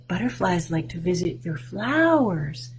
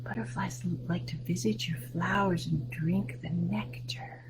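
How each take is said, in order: First: Said in the usual way. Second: Much softer whispered line. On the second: Shown as a demonstration. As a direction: whisper it to the children. Repeats sentence in whisper.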